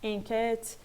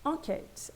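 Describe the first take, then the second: First: "enquête" starting with a fronted in sound; wrong first vowel. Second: "Enquête" starting with nasal French an sound; standard nasal en. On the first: Teacher warning students off this sound, fronted first vowel. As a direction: say "enquête" wrongly, as if spelt inquête. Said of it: "Attention, pas enquête". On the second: Teacher modelling standard French, nasal an sound. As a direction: open the nasal first syllable of "Enquête", like an. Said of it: "a fonética, como a gente viu anteriormente". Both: Shown as a demonstration.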